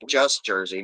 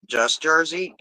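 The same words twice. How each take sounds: First: "Just Jersey" as a lower-pitched statement; confirming. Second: JERSEY asked in higher pitch; questioning. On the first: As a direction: settle "Just Jersey" down, no question. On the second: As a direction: query "Just Jersey?" in a raised voice. Questioning the message received. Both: Real, not acted.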